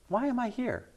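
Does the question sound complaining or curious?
curious. It sounds like a curious, open, eager question. The person genuinely wants to learn the purpose. The speaker calls it right.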